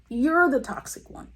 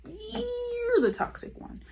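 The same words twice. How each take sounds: First: Higher-pitched "You're" in an exasperated retort; mock accusation. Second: "You're" stretched very long and very high, softly; exaggerated mock accusation. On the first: Viewer talking back to Corinne, "You're" pitched up accusingly. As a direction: push "You're" up high to throw the blame back. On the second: Viewer talking back to Corinne, "You're" hugely drawn out and high. Same retort, exaggerated on repeat.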